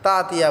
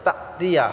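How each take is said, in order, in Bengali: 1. দলগুলো গলায় চাপ ছাড়াই একসাথে বলা হয়। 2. গলায় চাপ প্রথম দুটি দলকে আলাদা করে। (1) "তাতিয়া বললে হবে না" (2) "তা এটা ঝটকা হবে"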